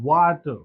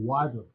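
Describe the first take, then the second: First: "Water" with a crisp t in the middle; clear T. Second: "water" American-style, with a d for the t; American accent. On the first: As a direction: say "Water" as wa-ter, sounding the t. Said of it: "टी को डा का". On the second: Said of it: "American". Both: Shown as a demonstration.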